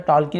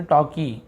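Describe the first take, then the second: First: टॉल्की with the L pronounced, 'tol-kee'; टॉल्की said as TAWL-kee; sounded L. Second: टॉकी with no L, 'taw-kee'; टॉकी said as TAW-kee; silent L. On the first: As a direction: let the L be heard in टॉल्की. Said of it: "टॉल्की नहीं पढ़े". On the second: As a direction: go straight from vowel to K in टॉकी. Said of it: "एल silent होता है". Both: Shown as a demonstration.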